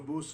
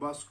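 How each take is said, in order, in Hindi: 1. स्वर गोल किया हुआ 'oo' ध्वनि है। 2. स्वर मानक छोटा 'uh' ध्वनि है।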